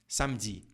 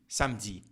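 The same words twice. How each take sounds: Both takes have the same delivery.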